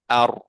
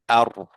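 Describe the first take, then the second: No difference in how they are said.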